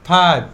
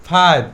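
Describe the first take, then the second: No difference in how they are said.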